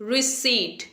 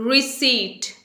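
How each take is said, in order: The two takes are said the same way.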